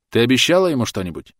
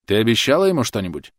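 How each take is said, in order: First: Louder, higher desperate demand; almost shout the question; near shout. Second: Louder, higher, pressing on ему; insistent repeat. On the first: Thomas confronting Clotilde, almost shouting. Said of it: "Он почти кричал". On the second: Thomas repeating the question to Clotilde, insistent. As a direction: push the question again. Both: A narrator's reading.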